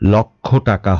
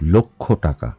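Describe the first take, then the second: First: The first vowel is an open 'aw' sound. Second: The first vowel is a closed 'o' sound. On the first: The speaker calls it wrong. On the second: The speaker calls it right.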